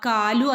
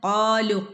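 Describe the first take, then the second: First: It starts with a plain front k sound. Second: It starts with a deep q from the throat. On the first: The speaker calls it wrong. "കാലു ആയി പോരുത്" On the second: The speaker calls it right. "ഖാഫ് തൊണ്ടയുടെ മുകൾ ഭാഗത്തു നിന്ന് വരുന്ന ലെറ്ററാണ്"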